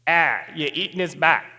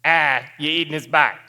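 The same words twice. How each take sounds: First: Put-on thick Boston accent, dropped r, muttered from nearby. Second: Put-on Boston accent, called out louder. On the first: Stranger at next table to the diner, in Boston accent. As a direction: imitate a Boston local's flat vowels. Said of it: "people in Boston speak differently". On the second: Stranger repeating himself to the diner, louder in Boston accent. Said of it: "now I hear a little more loudly".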